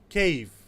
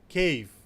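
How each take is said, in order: No difference in how they are said.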